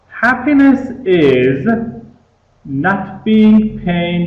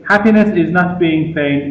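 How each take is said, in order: First: There is a pause after "is". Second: There is no pause after "is". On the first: The speaker calls it right. "pay attention to the way I read this quotation" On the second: The speaker calls it wrong. "we don't say"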